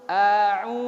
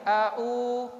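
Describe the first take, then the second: First: The lips push fully forward and round on u. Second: The lips stay flat without pushing forward on u. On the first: The speaker calls it right. "mulut kita indimamus syafataini itu maju ke depannya sempurna" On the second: The speaker calls it wrong. "jangan a'u, enggak boleh ya"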